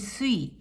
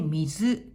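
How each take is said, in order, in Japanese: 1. 音読みで読みます。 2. 訓読みで読みます。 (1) "音読みで" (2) "訓読みで"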